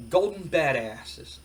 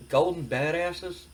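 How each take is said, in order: First: Slow, drawn-out slogan reveal; shirt slogan reveal. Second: Slow, questioning repeat with rising end; doubtful echo. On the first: Wrestler's partner shows off a shirt slogan, slow reveal. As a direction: read the slogan out slowly and deliberately. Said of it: "and it says, um". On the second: Wrestler questions his partner's shirt slogan, doubtful echo. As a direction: echo it back as a drawn-out question. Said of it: "Billy Gunn's just like". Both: Acted.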